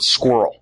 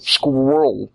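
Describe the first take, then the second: First: Said in the usual way. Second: Squirrel said as "skwoll", imitating a Spanish speaker; Spanish accent. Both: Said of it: "they can't say the word squirrel".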